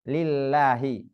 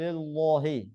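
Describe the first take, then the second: First: The first L is pronounced light and thin. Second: The first L is pronounced heavy and thick. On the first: The speaker calls it right. "Mengapa dibaca tarkik?" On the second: The speaker calls it wrong. "enggak boleh"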